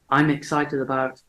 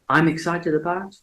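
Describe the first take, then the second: First: I am is joined into one short syllable. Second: The same.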